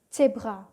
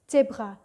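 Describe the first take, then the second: The two takes are said the same way.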